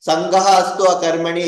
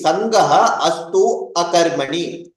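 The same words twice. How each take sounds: First: "Sangaha astu akarmani" fast, in one breath, no pauses; run together. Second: "Sangaha astu akarmani" slow, with pauses between words; separate words. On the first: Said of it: "If I were to say sangaha astu akarmani". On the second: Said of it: "then there is a pause". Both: Shown as a demonstration.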